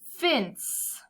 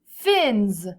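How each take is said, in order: First: The word ends with a hissing s sound. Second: The word ends with a buzzing z sound. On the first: The speaker calls it wrong. "I don't think it sounds right" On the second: The speaker calls it right. "let's go with the Z sound"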